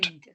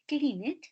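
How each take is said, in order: First: The ending is a plain D sound. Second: The ending is an extra syllable. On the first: The speaker calls it right. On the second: The speaker calls it wrong. "Que no dice cleaned"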